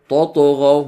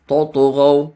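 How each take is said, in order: No difference in how they are said.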